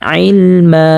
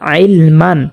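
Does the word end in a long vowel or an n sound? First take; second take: long vowel; n sound. First: The word ends with a drawn-out vowel. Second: The word ends with an n sound. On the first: "এক জবর বাদ দিয়ে এক আলিফ পরিমাণ টানিয়া পড়ব" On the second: "বানান করি তাহলে হবে আইলমান"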